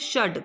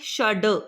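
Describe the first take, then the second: First: The final consonant is said without a vowel. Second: The final consonant is followed by a vowel. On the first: The speaker calls it right. "हलंत जहाँ पे लग जाए वो वर्ण का उच्चारण आधा होता है" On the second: The speaker calls it wrong. "Not षड"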